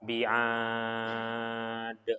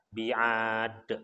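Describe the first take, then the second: First: The long vowel is held for six counts. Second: The long vowel is held for two counts. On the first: "Kalau enam harokat" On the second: "Kalau kita biasa untuk memakai dua harokat, maka bi'ad pendek"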